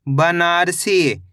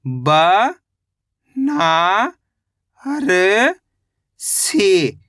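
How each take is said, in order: First: Said in the usual way. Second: Very slow, each syllable drawn out; sounding out Banarasi slowly. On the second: Shown as a demonstration. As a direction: stretch out every syllable for a child. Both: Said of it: "कैसे पढ़ेंगे?".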